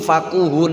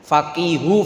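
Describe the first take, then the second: First: The vowel after the q is 'u'. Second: The vowel after the q is 'i'. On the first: It means having good manners. "bisa dibaca dhamma" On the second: It means having knowledge of the law. "bisa dibaca kasra"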